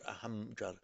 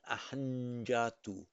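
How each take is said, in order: First: The nasal before the j sounds like m. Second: The nasal before the j sounds like n. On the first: The speaker calls it wrong. "not ahamjatu" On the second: The speaker calls it right. "it takes on the same sound"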